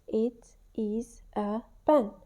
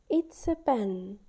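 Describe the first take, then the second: First: It and is are said as separate words. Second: It and is merge into one contracted syllable. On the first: "giving each finger a word" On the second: "to show the contraction"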